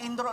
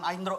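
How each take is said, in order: First: The name begins with an 'ee' vowel sound. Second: The name begins with an 'eye' vowel sound. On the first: The speaker calls it right. "dibacanya Indro loh" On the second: The speaker calls it wrong. "bukan Aindro"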